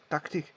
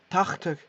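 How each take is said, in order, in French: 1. La consonne du milieu est un son k dur. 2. La consonne du milieu est un son de gorge rocailleux, proche d'un R. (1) "on dit pas tactique" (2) "Il faut savoir mettre un R dans le C H"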